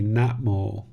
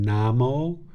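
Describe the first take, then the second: First: It is said with a t before mo. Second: It is said without a t before mo. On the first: It is the form used in the chant. "but when I chant, I say Natmo" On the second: It refers to the speaker's nephew. "When I refer to my nephew, I call him Namo"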